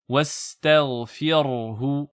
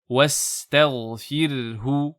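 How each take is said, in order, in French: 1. Le son du r est lourd et épais. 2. Le son du r est léger et fin. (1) "je ne dis pas wastaghfirhu" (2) "Le ra est bien aminci"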